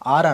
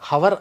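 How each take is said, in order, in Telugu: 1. ఈ పదం అచ్చు శబ్దంతో మొదలవుతుంది. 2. ఈ పదం h శబ్దంతో మొదలవుతుంది. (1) "ఆర్ అనాలి" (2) "హవర్ అనకూడదు"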